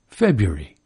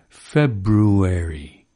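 First: It is said the usual way, not following the spelling. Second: It is said sounding out the spelling.

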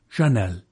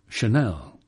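First: The stress is on the first syllable. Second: The stress is on the second syllable. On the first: This is how English speakers do not say it. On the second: This is how English speakers say it. "We Anglos must obviously think the iambic rhythm sexier"

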